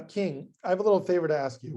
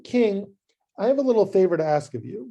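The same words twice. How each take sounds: First: Tentative, uneasy favor request; awkward hesitant ask. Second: Quick, bright, casual favor request; breezy easy ask. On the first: Esther nervously asking the king a favor, awkward and hesitant. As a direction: edge into the request, dreading it. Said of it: "That's a very awkward conversation to have". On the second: Esther lightly asking the king a small favor, breezy. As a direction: toss off the request like it's nothing. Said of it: "It goes like this". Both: Acted.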